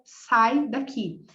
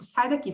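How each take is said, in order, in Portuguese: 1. A frase é dita devagar, com mais pausa entre as palavras. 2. A frase é dita rápido, com as palavras juntas.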